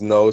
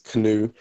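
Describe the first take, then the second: First: It is said as one syllable, like no. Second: It is said as two syllables, like canoe. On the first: "Some people pronounce it as no" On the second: "Some people pronounce it as canoe"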